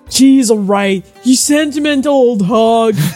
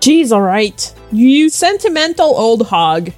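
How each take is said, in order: First: It is said in a put-on dude bro voice. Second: It is said in a normal reading voice.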